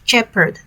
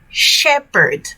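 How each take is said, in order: First: The word begins with a ch sound. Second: The word begins with a sh sound. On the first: The speaker calls it wrong. "not shepherd, not ch" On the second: The speaker calls it right. "sh, shepherd"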